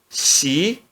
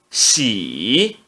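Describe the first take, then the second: First: The pitch rises from mid to high. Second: The pitch dips low then rises. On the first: "No segundo tom" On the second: "No terceiro tom"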